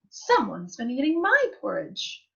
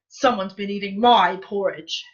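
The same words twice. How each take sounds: First: It is said in a middle-sized voice. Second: It is said in a great big voice.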